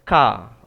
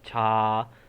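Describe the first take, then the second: First: The syllable starts with a k sound. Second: The syllable starts with a ch sound. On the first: The speaker calls it right. "Awak kena sebut betul-betul" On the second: The speaker calls it wrong. "sebutan dia bukan ca"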